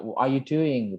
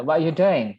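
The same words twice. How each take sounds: First: Said in the usual way. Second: Imitated Midlands accent, punched out; Brummie accent. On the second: Shown as a demonstration. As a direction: try a Brummie-style run-together question. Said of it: "ada ini di Midland, Broomy". (logat Midlands Inggris tiruan)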